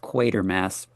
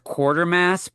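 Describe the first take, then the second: First: The first syllable sounds like 'quat'. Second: The first syllable sounds like 'quart'. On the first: This is how the film pronounces the name. "in this movie they actually pronounce it as Quatermass" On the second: This is how the speaker read the name. "always read it as Quartermass"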